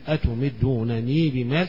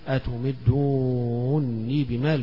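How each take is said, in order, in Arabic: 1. يُنطق نونان منفصلتان. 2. حرف مد طويل ونون واحدة مدغمة. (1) "يقرأها بالياء في الحالين" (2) "بالمد الطويل فيها والإدغام"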